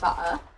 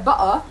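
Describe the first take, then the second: First: The t in the middle is clearly pronounced. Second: The t in the middle is dropped. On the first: This is the form taught in school. "you don't say butter" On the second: This is how people in England actually say it. "You say butter. ... Where's the T's?"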